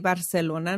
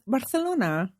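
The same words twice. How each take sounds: First: It is said with a plain English accent. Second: It is said with a Spanish accent, lisped c. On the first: "I would say Barcelona normally" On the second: "I'm using a Spanish accent"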